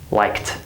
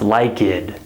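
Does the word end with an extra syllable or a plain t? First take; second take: plain t; extra syllable. First: The ending is a single t sound. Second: The ending is an extra syllable, like-id. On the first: The speaker calls it right. "It's liked" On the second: The speaker calls it wrong. "this word is not pronounced like-id"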